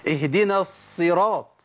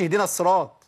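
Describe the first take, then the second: First: "اهدنا الصراط" slow, with a long held ص; properly doubled Sad. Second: "اهدنا الصراط" with just one short s; undoubled Sad mistake. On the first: Teacher showing the right reading, doubled Sad. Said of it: "ما أقولش". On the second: Teacher showing what not to say, single Sad. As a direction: drop the doubling in "الصراط". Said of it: "فجبت حرف واحد بس". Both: Shown as a demonstration.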